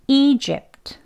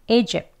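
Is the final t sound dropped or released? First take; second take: released; dropped. First: The word ends with a released t sound. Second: The word ends on a closed p, no t. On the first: This is the full, careful pronunciation. "이제 트라는 소리 끝소리를 하기도 하지만요" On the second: This is the quicker, casual way in conversation. "이 트 소리까지 내지 않습니다. 그냥 읍에서 끝나요"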